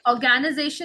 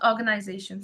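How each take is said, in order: First: It is said with a Filipino accent. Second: It is said with a standard accent. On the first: "They say organization" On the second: "not organization"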